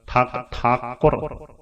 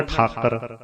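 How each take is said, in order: First: "ਠਾਕੁਰ" slow, as thaa-kur with a clear u; middle u sounded. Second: "ਠਾਕਰ" as thaa-kar, no u; middle u dropped. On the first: Teacher models the middle vowel, slow "ਠਾਕੁਰ". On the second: Teacher imitates readers' slip, "ਠਾਕਰ" without the u. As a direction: say "ਠਾਕਰ" with a plain short a. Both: Shown as a demonstration. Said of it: "ਵਿਚਕਾਰਲੀ ਔਂਕੜ ਬੋਲਣ ਵੇਲੇ ਧਿਆਨ".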